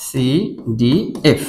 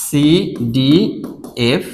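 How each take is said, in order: First: CDF spelled very slowly, ending on a rise; slow spelling out, rising. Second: CDF spelled very slowly, letter by letter; slow spelling out. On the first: Teacher to students, slowly spelling with a questioning rise. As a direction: crawl through CDF and lift the end. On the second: Teacher to students, spelling the rhyme scheme very slowly. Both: Shown as a demonstration. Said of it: "এইটা মিল রয়েছে".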